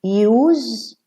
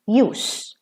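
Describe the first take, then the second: First: "Use" said "yooz", long buzzed ending; voiced Z ending. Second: "use" said "yoos", hissed ending. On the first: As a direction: say "Use" as a verb, final Z. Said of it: "Use as a verb". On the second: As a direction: say "use" as a noun, final S. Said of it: "what is the use of". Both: Shown as a demonstration.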